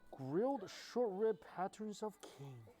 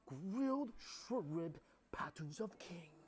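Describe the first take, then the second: First: The phrase is read in a plain, ordinary tone. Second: The phrase is said in a grand, important tone.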